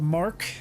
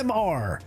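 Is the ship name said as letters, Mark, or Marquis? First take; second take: Mark; letters. First: It is said as one syllable, mark. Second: It is said as two separate letters. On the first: "So it is the Mark" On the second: "if you hear me call it the M R"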